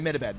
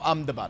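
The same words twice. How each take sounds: First: The name is read as it looks in spelling. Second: The name follows the local pronunciation. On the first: The speaker calls it wrong. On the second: The speaker calls it right.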